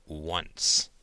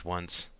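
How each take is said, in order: First: Low, ominous single word; sinister voice. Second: Said in the usual way. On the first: A narrator's reading. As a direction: lower it into mock menace. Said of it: "She turned on a sinister voice".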